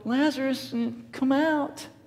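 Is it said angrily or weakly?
weakly. It is said in a weak, timid voice.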